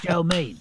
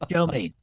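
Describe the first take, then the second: First: It is said in a plain voice. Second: It is said in a gruff voice.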